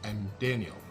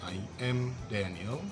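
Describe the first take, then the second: First: 'I am' is shortened to one syllable. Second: Both words 'I am' are said in full. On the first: The speaker calls it right. "I am disingkat menjadi I'm" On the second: The speaker calls it wrong. "native speaker tidak mengatakan seperti itu"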